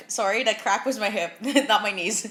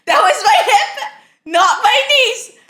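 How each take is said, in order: First: Said in the usual way. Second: Much higher, louder and slow, shaking with real laughter; real laughing repeat of the same words. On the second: Real, not acted. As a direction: say it through helpless laughter.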